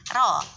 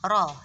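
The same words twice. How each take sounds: First: The r sound is thin, lips unrounded. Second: The r sound is thick, lips rounded. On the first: The speaker calls it wrong. "nggak mungkin ro" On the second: The speaker calls it right. "mesti udah moncong kan ya"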